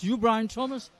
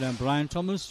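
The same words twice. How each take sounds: First: High, rising Yorkshire query; Geoffrey Boycott's Yorkshire accent. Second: Said in the usual way. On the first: Retold or imitated. Checking a newcomer's name, imitated Yorkshire accent. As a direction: question it back in imitated Yorkshire, pitched up. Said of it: "in his nice Yorkshire accent". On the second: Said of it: "And I said".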